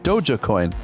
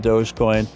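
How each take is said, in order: First: The first part sounds like 'doja'. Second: The first part sounds like 'dohj'. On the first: A less common way some people say it. "Some people pronounce it Doja Coin" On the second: The way most people say it. "most people pronounce it uh"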